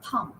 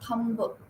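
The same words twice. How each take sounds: First: The final b is silent. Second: The final b is pronounced. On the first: The speaker calls it right. "B is silent here" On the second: The speaker calls it wrong. "You don't say"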